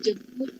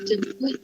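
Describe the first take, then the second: The two takes are said the same way.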